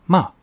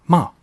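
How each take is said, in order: No difference in how they are said.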